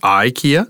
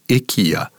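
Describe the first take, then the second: First: It is pronounced the classic Canadian way. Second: It is pronounced the way the island locals say it. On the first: This is how people in Canada say it. "classic Canadian pronunciation" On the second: This is how people on the island say it. "heard people say IKEA"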